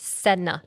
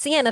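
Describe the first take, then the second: First: The name has two syllables, starting 'sen'. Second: The name has three syllables, starting 'see-en'. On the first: The speaker calls it right. "It's Senna" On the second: The speaker calls it wrong. "not Sienna"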